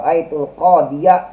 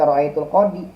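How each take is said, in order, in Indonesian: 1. Kata terakhir diberi tambahan -ya. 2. Kata terakhir berakhir biasa dengan -i. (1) "dibaca nasab aja dengan patah zohir" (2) "nggak boleh dibaca ro'aitul qodi"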